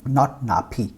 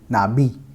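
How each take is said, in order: First: The middle consonant is a voiceless p sound. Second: The middle consonant is a voiced b sound. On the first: The speaker calls it wrong. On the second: The speaker calls it right. "the p will be pronounced like b"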